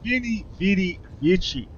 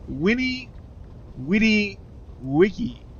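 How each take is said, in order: First: Each word begins with a V sound. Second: Each word begins with a W sound. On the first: The speaker calls it wrong. "if you were to pronounce it with the, the V" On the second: The speaker calls it right. "in Latin, you pronounce the V as a W"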